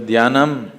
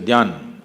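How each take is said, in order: First: The word ends with a full final syllable. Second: The word is cut off after its first part. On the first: This is how southern speakers say it. "You say Dhyanam" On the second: This is how Hindi speakers say it. "you say Dhyan. You're cutting off everything in the end"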